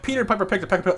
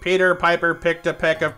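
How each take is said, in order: First: The phrase is spoken fast and breaks off. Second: The phrase is spoken slowly and evenly. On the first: "All right, full speed" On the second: "slow, it's just like"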